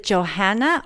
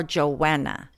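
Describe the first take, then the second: First: JOHANNA with the h sounded. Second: JOANNA with no h sound; Joanna without h. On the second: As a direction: leave out any h in Joanna. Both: Shown as a demonstration. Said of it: "Is it Johanna or Joanna?".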